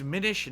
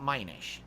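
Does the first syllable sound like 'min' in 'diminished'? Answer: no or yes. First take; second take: yes; no. First: The first syllable sounds like 'min' in 'diminished'. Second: The first syllable does not sound like 'min'. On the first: The speaker calls it right. "It's Minish, Minish as in diminished" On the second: The speaker calls it wrong. "not Minish"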